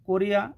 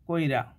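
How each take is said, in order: First: The i vowel comes after the r. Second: The i vowel comes before the r. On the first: "রয়ের পরে এখানে হ্রস্বীকার আছে" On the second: "রয়ের আগে হ্রস্বই সরে এসে উচ্চারিত হয়েছে"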